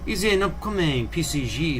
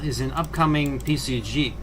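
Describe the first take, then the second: First: It is read in a put-on French accent. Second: It is read in the speaker's ordinary accent.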